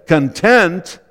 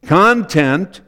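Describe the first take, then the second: First: ConTENT, second syllable stressed. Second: CONtent, first syllable stressed as the noun. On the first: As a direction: reduce "con" and stress TENT in "content". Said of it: "emphasis on the second syllable". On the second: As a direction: say "content" with a full, stressed "con". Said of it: "emphasis on the first syllable". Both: Shown as a demonstration.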